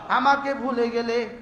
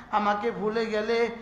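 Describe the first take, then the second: No difference in how they are said.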